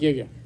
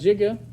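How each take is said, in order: First: The word uses the newer pronunciation. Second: The word uses the older pronunciation. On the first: This is how the computer industry says it. "They're going to call it giga" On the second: This is how the term was first pronounced. "the original pronunciation was Giga"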